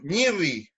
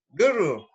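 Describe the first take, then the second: First: The word is said with palatalized sounds. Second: The word is said without palatalized sounds. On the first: This is how the coastal region says it. "en la costa, le dicen ñirri, que palatizan" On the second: This is how most regions say it. "siempre el gurru"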